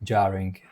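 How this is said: It is said in an American English accent. "americký"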